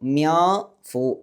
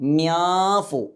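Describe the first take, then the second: First: The n is hidden in a nasalized vowel. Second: The same.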